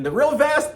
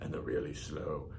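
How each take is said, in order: First: Loud, squeaky high voice; high pitch. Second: Deep, drawn-out low voice; low pitch. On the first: Teacher showing fast vibrations, high-pitched. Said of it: "in between the real fast". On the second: Teacher showing slow vibrations, low-pitched. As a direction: drop the pitch and drag it. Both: Shown as a demonstration.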